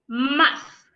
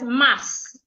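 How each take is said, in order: First: The word ends with a th sound, tongue between teeth. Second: The word ends with a plain s sound. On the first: The speaker calls it right. "So this word is pronounced muff" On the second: The speaker calls it wrong. "Most times I hear Ghanaians pronounce the first word as mass"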